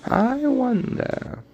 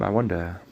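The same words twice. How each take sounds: First: Very high, slow wondering voice; wizard impression. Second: Said in the usual way. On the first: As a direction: stretch it high and slow, dreamy. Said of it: "like that one guy from Harry Potter".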